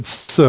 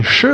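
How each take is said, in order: First: "s" said as a quiet hissed s; s sound. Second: "sh" said as a held sh hush; sh sound. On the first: Teacher showing the Ephraimite substitute, a quiet hissed s. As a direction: give "s" as a thin hiss. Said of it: "they said". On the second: Teacher showing the sound Ephraimites lacked, a held sh. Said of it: "instead of saying". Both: Shown as a demonstration.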